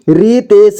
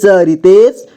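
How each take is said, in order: First: रितेश as रि-ते-श; syllable by syllable. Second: Said in the usual way. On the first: Shown as a demonstration. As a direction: sound out रितेश in three parts. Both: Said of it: "एक ही बार में पढ़ेंगे".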